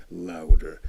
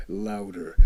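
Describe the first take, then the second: No difference in how they are said.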